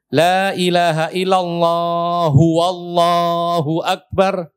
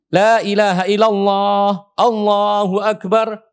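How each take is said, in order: First: A 'w' sound is added before Allahu Akbar. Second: No 'w' sound comes before Allahu Akbar. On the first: The speaker calls it wrong. "Betul nggak itu?" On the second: The speaker calls it right. "Tidak pakai huwa"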